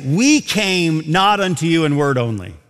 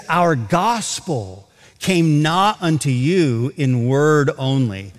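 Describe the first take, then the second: First: WE leaned on, the rest even; stress on we. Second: Slow, each word set apart, peak on "not"; slow, weighted reading. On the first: Preacher to congregation, showing the reading Paul didn't give, stress on "we". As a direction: put the weight on "we" as the wrong reading. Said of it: "He doesn't say that". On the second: Preacher to congregation, showing where Paul puts the emphasis, slow and deliberate. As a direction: read it slowly so "Our gospel" and "not" land. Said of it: "He says". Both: Shown as a demonstration.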